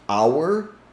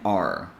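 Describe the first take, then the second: First: The word sounds like 'hour', with a vowel glide. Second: The word sounds like 'are', reduced to one sound. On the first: The word is being emphasized. "which sounds exactly like H O U R, hour as in time" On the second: The word is not being emphasized. "and R"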